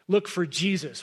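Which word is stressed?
jesus. The word 'Jesus' carries the main stress. We need to seek who he really is. The speaker calls it right. "I think the emphasis is probably on the look for Jesus"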